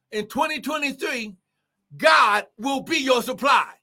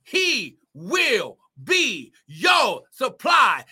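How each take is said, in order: First: First take, called out strong and high; preached declaration. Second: Second take, slowed right down and shouted; drawn-out repeat. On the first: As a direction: declare it out to the congregation. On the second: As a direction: stretch each word out for emphasis. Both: Real, not acted. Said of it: "I'm gonna say it again".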